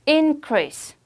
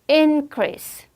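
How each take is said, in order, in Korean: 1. 강세는 첫 번째 음절에 있어요. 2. 강세는 첫 번째 음절에 있어요.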